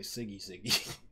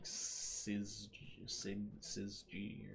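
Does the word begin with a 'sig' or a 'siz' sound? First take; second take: sig; siz. First: The word begins with a hard 'sig' sound. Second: The word begins with a buzzing 'siz' sound. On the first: "I usually say" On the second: "It's probably more like"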